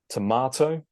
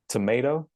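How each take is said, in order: First: It is said in a British accent. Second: It is said in an American accent. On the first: "starting with the British version" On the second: "and then the American version"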